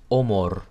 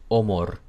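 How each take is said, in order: First: The vowels sound Hungarian-like. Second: The same.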